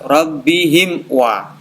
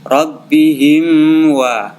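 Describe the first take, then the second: First: The m sound is pronounced clearly and separately. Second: The m sound is blurred into the next word. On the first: The speaker calls it right. "Harus jelas" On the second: The speaker calls it wrong. "Tidak boleh"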